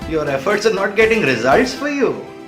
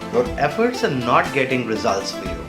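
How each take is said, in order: First: It is said in a playful, teasing tone. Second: It is said in a plain, neutral tone.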